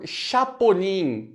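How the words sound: The name is said with a Brazilian pronunciation. The name has been adapted for Brazil. "dá uma abrasileirada no negócio"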